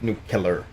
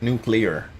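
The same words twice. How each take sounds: First: It ends with the sounds cu-lar. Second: It ends with the sounds clee-ar. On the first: The speaker calls it wrong. "not nuclear" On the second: The speaker calls it right. "Nuclear, not"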